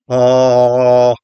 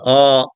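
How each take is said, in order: First: The vowel is pulled back, slightly throaty. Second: The vowel is open and plain, not throaty. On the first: "I pull my tongue back a little bit in my mouth" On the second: "if I say ah"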